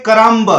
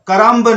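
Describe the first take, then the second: First: The word ends with an audible b sound. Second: The word ends with an audible b sound.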